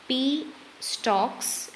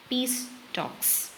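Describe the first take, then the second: First: "P", a clear break, then "stalks"; pause before "stalks". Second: "P" and S run together as "peas", then a break before "talks"; pause after the S. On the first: Lecturer showing how a pause between words makes meaning, juncture after "P". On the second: Lecturer showing how a pause between words makes meaning, juncture after the S. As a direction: close the first word on the S, pause, then say "talks". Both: Shown as a demonstration. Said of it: "pause between two words".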